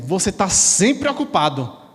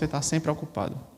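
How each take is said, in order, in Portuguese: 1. É dita com uma voz elevada e irritada. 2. É dita com uma voz calma e uniforme. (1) "nós aumentamos o tom de voz, botamos aquela cara carrancuda" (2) "Nós não dizemos esse tom de voz"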